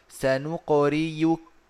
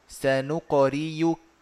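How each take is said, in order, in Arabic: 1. الحرف الأوسط صوت ياء. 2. الحرف الأوسط صوت ياء.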